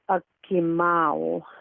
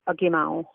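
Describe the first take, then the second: First: The word is said slowly and carefully. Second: The word is said quickly and fluently. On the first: "the slow pronunciation" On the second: "the fluent pronunciation"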